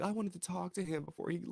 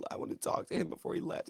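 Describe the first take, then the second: First: Whiny quote. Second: Whispered, faster, mocking the whining. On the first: Retold or imitated. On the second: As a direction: breathe it out like a sulky complaint. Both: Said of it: "They said".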